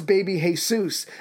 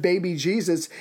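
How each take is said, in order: First: "Jesus" said the Spanish way, as hay-SOOS; "baby Jesus" with Jesus sounded hay-soos, Spanish style. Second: Said in the usual way. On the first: Shown as a demonstration. Joking to co-host about the dark baby, Jesus said hay-soos Spanish style. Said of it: "instead of baby Jesus". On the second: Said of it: "it's baby Jesus".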